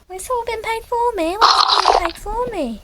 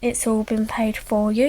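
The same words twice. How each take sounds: First: Squeaky surprise, stretching the words; amazed question. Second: Said in the usual way. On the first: Acted. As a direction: ask it in a high voice, astonished. Character reacts to being treated.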